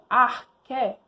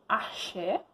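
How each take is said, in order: First: The middle consonant sounds like k. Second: The middle consonant sounds like sh. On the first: The speaker calls it right. "mas se pronuncia corretamente" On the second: The speaker calls it wrong. "uma palavrinha que vocês falam que é axé"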